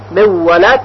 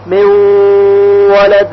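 First: من ولد with a clear separate nun; plain unmerged reading of من ولد; wrong, unmerged. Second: من ولد with nun merged into a nasal و; correct merge. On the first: Teacher shows students the wrong reading, plain. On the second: Teacher gives students the correct reading, nasal. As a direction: hold the و of ولد with ghunna. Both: Shown as a demonstration. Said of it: "صحیح نخواهد بود".

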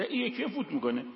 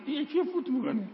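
First: Said in the usual way. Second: یکی said high with a falling tune; this yikey, higher each time; پیچ بالا روی یکی; stress on یکی. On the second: Shown as a demonstration.

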